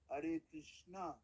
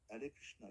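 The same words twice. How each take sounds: First: The final vowel of Krishna is long. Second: The final vowel of Krishna is short. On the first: The speaker calls it wrong. "You don't say Hare Krishna, Hare Krishna. No" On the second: The speaker calls it right. "It's a tiny little A"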